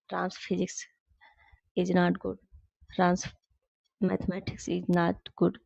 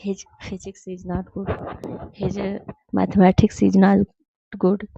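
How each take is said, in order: First: Slow, word-by-word reading of the example; slow correct example. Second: Slow, word-by-word reading of the wrong sentence; slow wrong example. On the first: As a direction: read the example slowly, like dictation. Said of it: "लेकिन जब यहाँ possessive आ जाएगा". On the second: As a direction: read the wrong example slowly, like dictation. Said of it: "तो ये is लगाना गलत हो जाएगा". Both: Shown as a demonstration.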